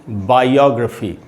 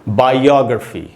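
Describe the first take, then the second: No difference in how they are said.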